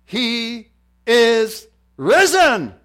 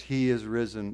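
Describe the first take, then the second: First: Loud, high, very slow shout; triumphant proclamation. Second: Said in the usual way. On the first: Real, not acted. Preacher answering with the most powerful words, triumphant shout. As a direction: proclaim each word separately, huge and slow.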